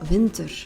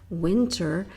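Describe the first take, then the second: First: The word is pronounced the Dutch way. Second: The word is pronounced the English way. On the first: "in Dutch, it would become" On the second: "if you say"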